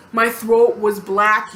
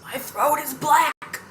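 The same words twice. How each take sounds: First: Said in the usual way. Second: Slow, high, strained mock croak; put-on pained voice, drawn out; sore-throat voice. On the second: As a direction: act out barely managing to talk. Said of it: "'cause my throat was hurting so bad".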